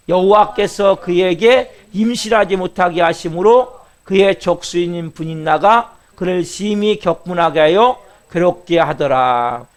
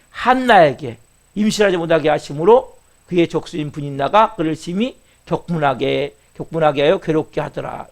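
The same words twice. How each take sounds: First: Slow, drawn-out unison reading; scripture reading. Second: Said in the usual way. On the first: Shown as a demonstration. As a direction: read each phrase slowly and evenly with the church. Leads scripture reading again. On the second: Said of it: "repeats the verse explaining".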